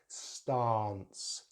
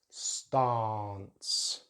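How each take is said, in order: First: The vowel is a long 'ah' sound. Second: The vowel is a long 'ah' sound.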